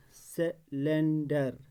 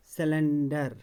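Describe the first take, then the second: First: cylinder slowly in beats, se, len, dar; syllable by syllable. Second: Said in the usual way. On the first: Shown as a demonstration. Teacher showing the tongue moves three times, syllable by syllable. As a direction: stretch cylinder out with breaks between syllables. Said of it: "ज़बान तीन बार हिलती है". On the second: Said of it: "तीन बार हिलती है".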